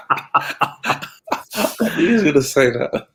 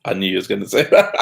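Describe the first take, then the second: First: Slow, laughing repeat. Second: Said in the usual way. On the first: Real, not acted. Co-host laughing at the predicted answer, slow laughing repeat. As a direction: laugh it out slowly, higher.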